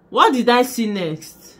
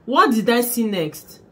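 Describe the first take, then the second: No difference in how they are said.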